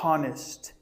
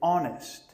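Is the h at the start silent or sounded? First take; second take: sounded; silent. First: The h at the start is pronounced. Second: The h at the start is silent. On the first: The speaker calls it wrong. "Don't say" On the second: The speaker calls it right.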